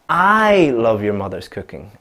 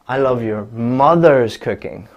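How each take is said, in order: First: The stress falls on the word I. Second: The stress falls on the word mother's. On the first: The speaker, not anyone else, loves the cooking. "if I change the stress from love to I" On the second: It is the mother's cooking, not another relative's. "So not your father's cooking, not your sister's cooking"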